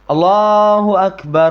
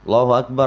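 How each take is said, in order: First: The phrase is said slowly and drawn out. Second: The phrase is said quickly and close together. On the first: It is meant to be heard from far away. "Jadi pelan" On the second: The congregation is about to stand for prayer. "dengan cepat"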